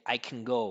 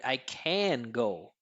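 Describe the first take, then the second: First: 'Can' is short, low and reduced. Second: 'Can' is full, clear and emphasized. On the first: The word is not an important part of the message. "we're going to make a reduction" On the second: The word is an important part of the message. "we'll emphasize it, pronounce it really clear"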